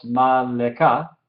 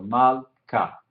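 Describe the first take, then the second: First: "mal le ka" with an extra voiced "le" syllable between mal and ka; wrong pronunciation demo. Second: "mal ka" in two syllables, with the shewa silent and no vowel between l and k; correct pronunciation demo. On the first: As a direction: show the wrong way, voicing the shewa as "le". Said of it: "No decimos". ("mal le ka" pronunciado mal, con la sílaba "le" sonora) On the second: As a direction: show the right way, going straight from mal to ka. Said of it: "es silencioso". ("mal ka" correcto, con el shewa mudo entre la l y la k) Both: Shown as a demonstration.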